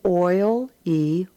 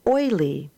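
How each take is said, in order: First: Oil-y spoken as oil then y with a lift; Oil-y sounded out for the class; split in syllables. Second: Said in the usual way. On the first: Shown as a demonstration. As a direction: sound out Oil-y in two parts. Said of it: "read the words as two syllables". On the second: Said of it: "and then as the whole word".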